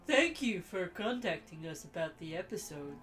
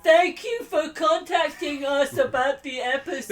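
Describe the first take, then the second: First: It is said in a plain, smart-sounding voice. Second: It is said in a silly, dim-sounding put-on voice.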